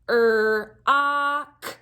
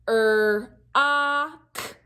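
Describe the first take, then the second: Both takes have the same delivery.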